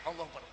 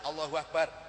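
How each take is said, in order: First: The voice is tight and somewhat choked. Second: The voice is relaxed and easy. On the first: "rada nyekek" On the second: "takbir santai"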